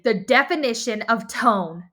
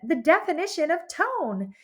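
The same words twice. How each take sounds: First: It is said in an angry tone. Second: It is said in a cheerful tone. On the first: "that's angry" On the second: "that's me being cheerful"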